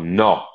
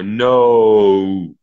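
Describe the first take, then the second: First: The vowel stays as one pure sound. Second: The vowel glides from one sound to another. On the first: "instead of no or no, like in Italy" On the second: "diphthongs that you have to swift from one vowel to another"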